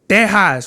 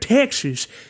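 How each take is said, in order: First: It is said with a Spanish-style pronunciation. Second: It is said with an ordinary English pronunciation. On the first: The speaker calls it right. "That's how you say it" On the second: The speaker calls it wrong. "You don't say uh"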